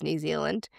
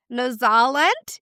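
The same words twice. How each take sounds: First: Said in the usual way. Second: Slow, badly faked Kiwi accent; hammed-up attempt at a Kiwi accent; bad New Zealand accent. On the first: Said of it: "I apologize". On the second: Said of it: "that was a bad accent".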